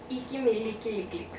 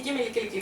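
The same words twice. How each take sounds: First: It is said slowly, with pauses. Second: It is said at normal speed.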